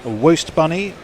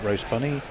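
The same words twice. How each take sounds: First: "roast" said as "woast", with a W for the R. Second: Said in the usual way. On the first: Retold or imitated. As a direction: start "roast" with a W, so "woast bunny". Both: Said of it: "he spells it roast bunny".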